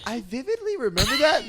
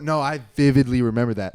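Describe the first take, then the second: First: It sounds doubtful, like questioning the memory. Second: It sounds certain, firmly insisting on the memory.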